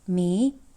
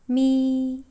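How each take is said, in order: First: The syllable carries the rising second tone. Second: The syllable carries the first tone. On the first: "It goes up" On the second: "the first tone sounds in Chinese"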